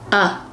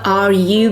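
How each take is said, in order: First: The two words blend into one short sound. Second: Both words are said fully and separately.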